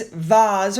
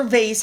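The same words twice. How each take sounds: First: Vase rhyming with "Oz"; Vase as "vahz". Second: Vase rhyming with "base"; vase as "vayss". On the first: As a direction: say Vase with a long "ah" and a z ending. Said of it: "or vase, however you want to say it". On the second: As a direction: say vase with an "ay" vowel and an s ending. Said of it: "however you want to say it". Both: Shown as a demonstration.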